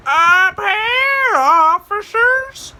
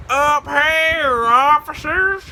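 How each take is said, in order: First: Very high, loud, drawn-out holler; shrieking call. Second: High, sing-out call. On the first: Prankster up a tree to searching officers, high shouted call. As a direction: belt it down from the treetop. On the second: Prankster up a tree to searching officers, high teasing call. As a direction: call down sweetly high, without shouting. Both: Retold or imitated.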